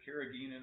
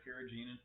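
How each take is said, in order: First: Carrageenan with a hard g, as in geese; alternative pronunciation. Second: Carrageenan with a soft g, like a j; alternative pronunciation. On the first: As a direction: say carrageenan as "kair-uh-GHEE-nun". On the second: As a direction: say carrageenan as "kair-uh-JEE-nun". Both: Shown as a demonstration. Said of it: "I don't know how to pronounce it".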